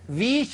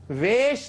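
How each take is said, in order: First: The word has an 'ee' vowel. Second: The word has an 'ay' vowel. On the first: This is the original Persian form. The speaker calls it right. "वीश होता है" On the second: This is the Urdu-ized form. The speaker calls it wrong. "उसमें वेश नहीं होता"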